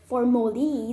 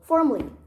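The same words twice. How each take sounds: First: The word is said with three syllables. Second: The word is said with two syllables. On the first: The speaker calls it wrong. "If you say it three syllable like formally, then it's completely wrong" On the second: The speaker calls it right. "Just two syllable"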